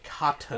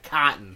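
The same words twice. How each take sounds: First: The t is fully pronounced. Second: The t is swallowed, like cot-n. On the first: This is how other people say it. "Where other people say cotton" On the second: This is how Connecticut people say it. "Connecticut people say cotton. Like C-O-T apostrophe N"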